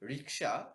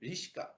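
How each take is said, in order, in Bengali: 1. k ধ্বনিটি s ধ্বনির আগে আসে। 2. s ধ্বনিটি k ধ্বনির আগে আসে। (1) "শব্দটি হচ্ছে রিক্সা" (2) "বিবর্তিত হয়ে গেছে রিস্কা"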